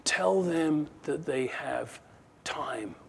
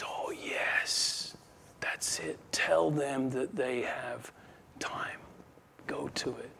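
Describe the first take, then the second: First: Slow, with a soft drop on "time"; a hint of a demon's sly suggestion, pause before "time"; lightly voiced scheming demon. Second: Slow, conspiratorial whisper; head demon whispering. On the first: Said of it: "one of them says". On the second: Acted. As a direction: whisper it as a scheming chief demon. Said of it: "the head one there says".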